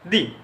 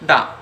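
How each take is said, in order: First: The word ends in a long 'ee' vowel. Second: The word ends in a short 'uh' vowel. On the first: The next word starts with a vowel. "এজন্য তার যে উচ্চারণ সেটি কিন্তু হবে দি" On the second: The next word starts with a consonant. "অন্যদিকে আরও একটি উচ্চারণ আছে, সেটি হলো দা"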